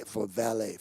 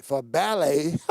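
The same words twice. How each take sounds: First: "valet" said as val-ay, with a v; quiet slip, "valet" with a soft v before the fix; mispronounced valet. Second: "ballet" with a clear b, bal-ay; corrected to ballet. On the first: The pastor slips and says "valet" for ballet. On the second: Correcting himself to the seniors' class name, "ballet" with a b. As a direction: fix the word, say "ballet" with a firm b. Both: Real, not acted.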